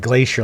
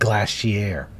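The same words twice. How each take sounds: First: The word gets a common, everyday pronunciation. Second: The word gets a posh, upper-class pronunciation. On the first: This is how ordinary people say it. "like normal people" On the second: This shows the person comes from money. "She pronounces it glacier"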